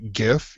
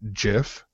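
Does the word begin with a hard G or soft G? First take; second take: hard G; soft G. First: The word begins with a hard G sound. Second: The word begins with a soft J sound. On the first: "if it was a hard G like GIF" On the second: "he would pronounce it JIF"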